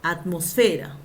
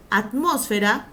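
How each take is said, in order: First: "Atmósfera" stressed on FE, at-mos-FE-ra; penultimate stress. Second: "Atmósfera" stressed on MOS, at-MÓS-fe-ra; antepenultimate stress. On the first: Teacher giving second accepted form, "Atmósfera" as at-mos-FE-ra. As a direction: move the weight late in "Atmósfera", onto FE. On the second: Teacher giving first accepted form, "Atmósfera" as at-MÓS-fe-ra. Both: Shown as a demonstration. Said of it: "Seguimos con la doble acentuación".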